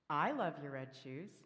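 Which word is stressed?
I. The stress is on the word I.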